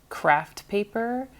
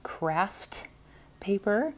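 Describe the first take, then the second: First: The words are run together and slurred. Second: Each sound is carefully and clearly articulated. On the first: The speaker calls it wrong. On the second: The speaker calls it right.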